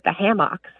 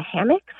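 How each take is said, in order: First: Hammocks with a full MOCK in the second syllable; roommate's pronunciation. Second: Hammocks with a reduced second syllable, HAM-icks; caller's own pronunciation. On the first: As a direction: say hammocks as HAM-MOCKS. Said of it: "never heard anybody say hammock". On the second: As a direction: say hammocks as HAMM-icks, questioning. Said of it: "what I call a hammock".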